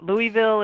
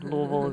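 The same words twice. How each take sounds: First: The name is said the way outsiders say it. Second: The name is said the way locals say it. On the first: The listener is someone from out of town. "what I say when I'm talking to somebody from out of town" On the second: The listener is someone from the city. "the normal normal way we do it here"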